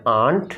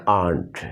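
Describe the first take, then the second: First: Aunt said the British way, with a light r sound; British English aunt. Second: Aunt said the American way; American English aunt. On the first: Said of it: "British English में आप कहते हैं". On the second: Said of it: "American English में आप कहते हैं". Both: Shown as a demonstration.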